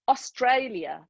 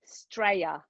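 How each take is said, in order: First: The word is said in full, all syllables. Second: The word is clipped, starting with an s. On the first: This is how the speaker's own group says it. "That's the way we would say it" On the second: This is how the locals say it. "They say Straya"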